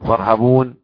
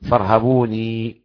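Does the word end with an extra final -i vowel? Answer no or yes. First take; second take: no; yes. First: The word ends on -n without a vowel. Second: The word ends with a final -i vowel. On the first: "والباقي يعزف الياء على الفاصلة" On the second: "يعقوب الوحيد يقرأ فارهبوني، يثبت الياء"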